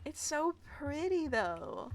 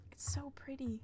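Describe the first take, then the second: First: Said in the usual way. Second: "pretty" whispered softly in awe. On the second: Real, not acted. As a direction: breathe "It's so pretty" as a whisper.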